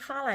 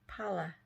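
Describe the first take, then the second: First: The name begins with an F sound. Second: The name begins with a P sound. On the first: The speaker calls it wrong. "I was pronouncing the name completely incorrectly because I was putting the H next to the P" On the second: The speaker calls it right. "It's not Fala, it's Pallaby"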